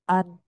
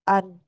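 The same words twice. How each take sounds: First: The sound is blocked with the nose pinched. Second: The same.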